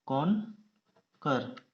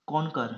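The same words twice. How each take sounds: First: conquer very slow, कॉन, long pause, कर; split into syllables. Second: Said in the usual way. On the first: Shown as a demonstration. Teacher dictating to shorthand students, conquer slowly split in two. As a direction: pull conquer apart after कॉन.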